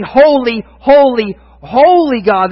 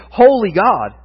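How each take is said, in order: First: Holy, holy, holy rising louder; triple holy proclaimed. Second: Single holy, said once; just one holy before God; a lone holy, no repetition. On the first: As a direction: proclaim each holy with growing force. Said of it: "They say it three times". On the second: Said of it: "but they don't say". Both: Shown as a demonstration.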